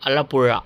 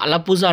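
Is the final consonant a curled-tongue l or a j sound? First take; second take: curled l; j sound. First: The final consonant is a curled-tongue l sound. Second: The final consonant is a plain j sound. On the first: The speaker calls it right. "ఆ నాలుక అనేది మడతపడాలి లోపల" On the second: The speaker calls it wrong.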